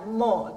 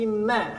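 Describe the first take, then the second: First: The vowel is heavy and rounded, sounding thick. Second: The vowel is light and open, sounding thin. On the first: The speaker calls it wrong. "Tong dibaca mo" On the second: The speaker calls it right. "tapi ma"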